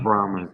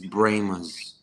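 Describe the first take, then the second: First: The first syllable sounds like 'brah'. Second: The first syllable sounds like 'bray'. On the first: This is the way outsiders say the name. The speaker calls it wrong. "not Brahmas" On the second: This is the local way of saying the name. The speaker calls it right. "it's Brahmas, ... where's the Y?"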